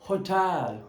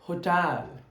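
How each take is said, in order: The two takes are said the same way.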